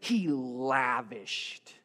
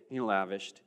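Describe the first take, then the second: First: It is said richly and expressively. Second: It is said flatly and plainly.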